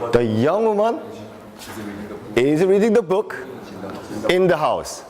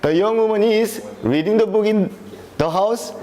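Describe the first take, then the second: First: The sentence is broken by two pauses. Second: The sentence runs on without its usual pauses. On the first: The speaker calls it right. "many of the native speakers have two poses in here" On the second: The speaker calls it wrong. "you can't read it like that. It's very unusual speaking"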